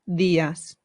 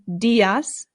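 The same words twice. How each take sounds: First: The D is soft, tongue behind the teeth. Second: The D is hard, like an English D. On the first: The speaker calls it right. "It softens the sound" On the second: The speaker calls it wrong. "instead of saying días"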